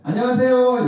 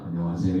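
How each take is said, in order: First: The greeting is said at a raised, bright pitch. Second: The greeting is said at a plain, low pitch. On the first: The speaker calls it right. "이렇게 조금 쏠 이렇게 쏠 도레미파 쏠" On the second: The speaker calls it wrong. "톤도 그냥"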